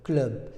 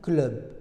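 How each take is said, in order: No difference in how they are said.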